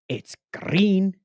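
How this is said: It is said in a put-on character voice. The speaker calls it right. "But if you say it like this"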